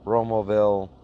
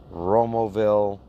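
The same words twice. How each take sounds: The two takes are said the same way.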